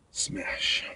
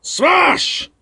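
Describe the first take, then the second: First: Breathless whisper of smash. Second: A high, loud shout of smash; mock smash. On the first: Acted. Bouncer repeats the punch word as a soft whisper. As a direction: hush it like a secret. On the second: Bouncer acts out a punch, high loud mock shout. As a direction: belt it out like a blow landing. Acting out hitting someone.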